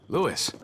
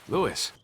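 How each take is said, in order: Both takes have the same delivery.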